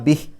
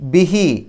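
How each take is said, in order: First: The word ends in a short clipped h. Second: The final vowel is held for two counts. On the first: The reading stops at this word. "ചെറിയൊരു ഹ് എന്നുള്ള ശബ്ദം ബിഹ് എന്ന് പറഞ്ഞിട്ടാണ് നിർത്തുക" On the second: The reading continues without stopping. "ആ ഹി എന്നുള്ളതിനെ ഒരു രണ്ടക്ഷരത്തിൻ്റെ ദൈർഘ്യം നീട്ടുക"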